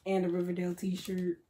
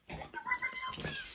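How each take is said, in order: First: Said in the usual way. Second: Extremely high, squeaky delight; overwhelmed squeal. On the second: Real, not acted. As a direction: repeat it as a tiny squeal. Repeats it overcome with delight.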